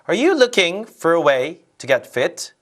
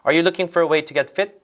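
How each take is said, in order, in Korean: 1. 표현력 있게 읽었어요. 강세와 끊어 읽기가 살아 있어요. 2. 밋밋하게 읽었어요. 강세와 끊어 읽기가 거의 없어요. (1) "이게 훨씬 더 설득력 있고 전달력이 좋아요" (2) "이렇게 읽는 것보다"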